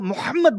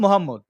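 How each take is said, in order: First: The name is pronounced in an Arabic way. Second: The name is pronounced in a Bengali way. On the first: "আমি তো মোহাম্মদ বলবো না" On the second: "কারণ আমি তো বাঙালি, আমি তো বলবো মোহাম্মদ"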